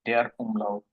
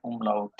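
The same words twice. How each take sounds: First: "der umlaut" in proper German sound, "der" stressed; German pronunciation. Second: "umlaut" said slowly and softly, syllable by syllable. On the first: (German উচ্চারণে "der umlaut") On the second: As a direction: introduce the word "umlaut" slowly like a teacher. (ধীরে "umlaut" উচ্চারণ) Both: Shown as a demonstration. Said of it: "সেগুলিকে বলা হয় umlaut".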